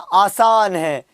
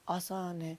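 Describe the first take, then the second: First: It is said loudly and with lots of energy. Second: It is said softly and slowly, without energy. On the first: The speaker is confident and enthusiastic. The speaker calls it right. "पूरे जोश और उत्साह के साथ में" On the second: The speaker seems to be doing someone a favor. The speaker calls it wrong. "धीरे से, आसान है ऐसे बोल रहे हैं, जैसे एहसान कर रहे हैं"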